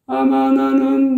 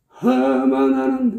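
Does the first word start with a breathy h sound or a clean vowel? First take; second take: clean vowel; h sound. First: The first word starts with a clean vowel. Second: The first word starts with a breathy h sound. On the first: The speaker calls it right. "이렇게 깔끔하고 자연스럽게" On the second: The speaker calls it wrong. "하마 나는 이런 식이 된단 말이에요"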